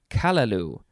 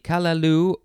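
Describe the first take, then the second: First: The stress falls on the first syllable. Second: The stress falls on the last syllable.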